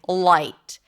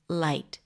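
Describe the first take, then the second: First: The L is heavy and tense. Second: The L is light and relaxed.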